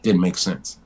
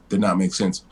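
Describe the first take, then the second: First: Said in the usual way. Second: Not split off and hit harder; stress on not. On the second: Real, not acted. Repeating himself about The Rock, stress on not. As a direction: land on the word not.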